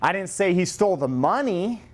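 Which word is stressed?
money. The stress is on the word money.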